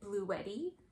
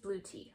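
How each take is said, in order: First: The name is said with three syllables, blue-wetty. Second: The name is said with two syllables, blue-tee. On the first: The speaker calls it wrong. "you will hear a lot of like old dudes on YouTube pronouncing it Blue-wetty" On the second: The speaker calls it right. "It's Blue Tea. I looked it up just to be sure"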